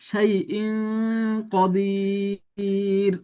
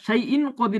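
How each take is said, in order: First: The n sound is hidden in a nasal hum. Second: The n sound before qadir is pronounced clearly. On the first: The speaker calls it right. "এখানে গুণনা হবে... নাকের ভিতর থেকে পড়বো" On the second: The speaker calls it wrong. "এরকম পড়বো না, যদি পড়ি এটা ভুল পড়া হয়ে যাবে"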